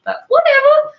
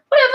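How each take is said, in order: First: Squeaky high whatever, loud; breezy dismissal. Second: Said in the usual way. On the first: Real, not acted. Host shrugging off going live on the wrong page, high and loud. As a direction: toss whatever off in a much higher, louder voice.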